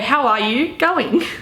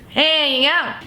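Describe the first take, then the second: First: Every word is said clearly and fully. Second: The words are squashed into two short syllables. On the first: "if you want to put it in the English terms" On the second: "because you go, hey, yeah"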